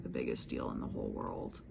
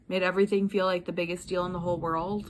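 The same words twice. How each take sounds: First: Much softer and lower, letting the air out; quiet deflating. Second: Said in the usual way. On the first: Shown as a demonstration. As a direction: drop it, it is no big deal after all. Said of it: "in fact". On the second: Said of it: "and everything is not, in fact".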